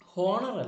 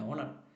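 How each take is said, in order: First: The word starts with an audible h sound. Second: The word starts with a vowel, no h. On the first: The speaker calls it wrong. "ഹോണർ അല്ല" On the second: The speaker calls it right. "ഓണറാണ് കേട്ടോ"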